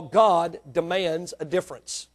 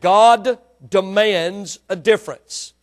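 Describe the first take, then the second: First: Said in the usual way. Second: Slow, louder repeat with GOD punched; emphatic repeat. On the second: Real, not acted. Preacher repeats his point to the congregation, emphatically. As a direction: drive home "God demands a difference", louder and drawn out. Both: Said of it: "I said".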